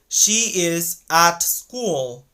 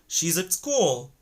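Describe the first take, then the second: First: The word 'at' has a full vowel and T. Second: The word 'at' is reduced to 'ud'. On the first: The speaker calls it wrong. "they're not gonna say like this" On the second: The speaker calls it right. "the word at changes into ud"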